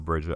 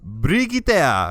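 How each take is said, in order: First: The name is said plainly, the English way. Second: The name is said elaborately, the foreign way. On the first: "I'm gonna call her Bridget" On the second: "she pronounces it, and she's like Brigitte or something, like with a lot, lot of uh, pronunciation"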